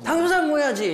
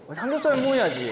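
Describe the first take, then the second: First: It is said in a strong, harsh tone. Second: It is said in a lowered, soft tone.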